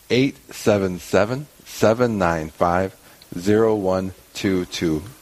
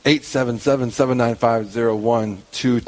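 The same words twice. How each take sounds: First: The number is read more slowly. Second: The number is read at a normal pace.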